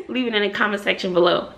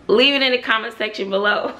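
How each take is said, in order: First: Fast call to action. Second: Said in the usual way. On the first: Shown as a demonstration.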